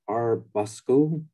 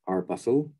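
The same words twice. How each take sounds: First: The c is said as a hard k sound. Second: The c is not said as a hard k.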